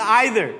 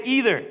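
First: "either" said as "EYE-ther"; eye-ther pronunciation. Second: "either" said as "EE-ther"; ee-ther pronunciation. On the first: Pastor polling congregation, eye-ther pronunciation. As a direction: start "either" with a long i, like eye. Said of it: "Who's the either?". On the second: Pastor polling congregation, ee-ther pronunciation. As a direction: start "either" with a long e, like eel. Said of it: "how many of you say either?". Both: Shown as a demonstration.

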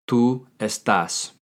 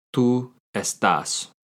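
First: Slow, clear Tú estás; teacher modelling the answer slowly; slow model answer. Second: Slow, clear repeat of Tú estás; teacher repeating the answer slowly; slow model answer. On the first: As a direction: lay out each syllable for the learner. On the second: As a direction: repeat it slowly for the student to copy. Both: Shown as a demonstration. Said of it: "How do you say "you are" in Spanish".

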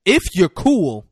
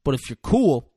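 First: "if" hit hard, higher and louder, phrase drawn out; stress on IF. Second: Said in the usual way. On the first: Retold or imitated. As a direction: lean slowly and loudly on "if". Repeated with weight on if.

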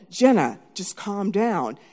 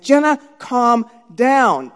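First: Slow, contained plea to a sister; measured calming. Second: Loud, higher, very drawn-out order; stressed command. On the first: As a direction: keep it at normal volume and slow it down. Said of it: "And she was heightening". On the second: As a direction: stretch each word forcefully, stress mounting. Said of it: "my stress was in my throat". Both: Retold or imitated.

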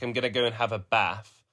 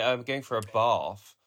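First: "bath" with short a, like "baff"; short Midlands vowel in "bath"; old Midlands pronunciation. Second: "bath" with a long ah, like "bahf"; long southern vowel in "bath"; London pronunciation. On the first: Quoting their old self, "bath" said with a short a. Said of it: "some things that stayed for ages, like bath". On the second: Quoting their present self, "bath" said with long ah. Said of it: "now I do say bath". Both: Shown as a demonstration.

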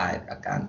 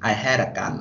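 First: "I had a gun" shortened to "I'd a gun"; contracted form. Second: "I had a gun" with had said in full; full form. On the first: Explaining the poet's shortening, contracted. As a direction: run I and had into one syllable. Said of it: "แต่เขาย่อเป็น I had a gun". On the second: Explaining the poem's wording, uncontracted. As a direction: keep I and had as two words. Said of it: "แต่เขาย่อเป็น". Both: Shown as a demonstration.

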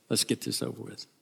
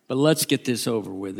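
First: Softly said, with resignation; quiet, grudging go-ahead; resigned aside. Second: Said in the usual way. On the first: Acted. Peter resignedly telling Andrew.

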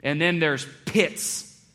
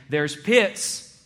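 First: Slow, with "pits" drawn out and leaned on; "and then there's pits", stretching "pits" as the bigger kind; slow, weighty stress on "pits"; stress on the second pits. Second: Said in the usual way. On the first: Shown as a demonstration. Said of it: "some pits are pittier than other pits". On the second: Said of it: "He was saying".

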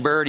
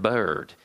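First: Said in the usual way. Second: Put-on Mississippi accent. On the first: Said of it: "instead of saying bird, he said bird". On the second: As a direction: say "bird" lower, like a gentle Mississippi Southerner. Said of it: "had this amazing Mississippi accent".

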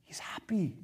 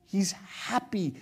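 First: Softer, tender statement; soft tender reassurance. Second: Slow, savoring each word; slow tender emphasis. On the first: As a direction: say it gently, as a comfort. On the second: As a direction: draw it out slowly to let it land. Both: Real, not acted.

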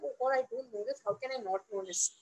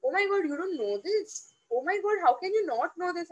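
First: Soft, lowered inner voice; deflated self-doubt. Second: Swooping, mock-shocked questions; incredulous put-down. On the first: Retold or imitated. Newcomer to herself at the big firm, deflated and quiet. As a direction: shrink into quiet, retold self-reproach. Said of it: "I used to feel like". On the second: Experienced colleagues to the newcomer, incredulous and judging. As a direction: mimic colleagues' exaggerated disbelief. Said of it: "people have this typical way of saying it".

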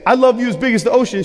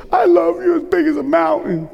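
First: Said in the usual way. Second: Lightly voiced small girl, pitched higher; a hint of a toddler answering her daddy; little daughter's voice. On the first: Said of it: "So I'd say". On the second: A preacher voicing his toddler daughter, lightly higher. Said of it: "She said".

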